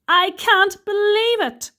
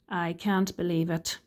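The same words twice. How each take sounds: First: It is said with excited surprise. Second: It is said flatly, without surprise.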